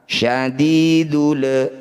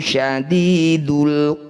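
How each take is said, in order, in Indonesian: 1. Bunyi l di akhir dipanjangkan. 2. Bunyi l di akhir pendek dan jelas.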